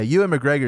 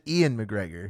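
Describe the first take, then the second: First: The first name begins with a 'you' sound. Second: The first name begins with an 'ee' sound. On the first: The speaker calls it right. "is how you say it" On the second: The speaker calls it wrong. "I said Ian McGregor"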